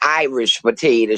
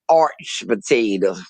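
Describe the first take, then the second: First: The first word is pronounced as full 'Irish'. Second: The first word is pronounced like 'arch'. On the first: "she never said Irish potato" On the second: "She said arch potato"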